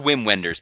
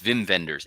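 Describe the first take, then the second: First: The name begins with a W sound. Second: The name begins with a V sound. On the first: The speaker calls it wrong. "It's spelled" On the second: The speaker calls it right. "but it's"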